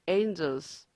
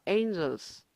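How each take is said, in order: The two takes are said the same way.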